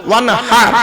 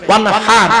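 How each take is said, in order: Both takes have the same delivery.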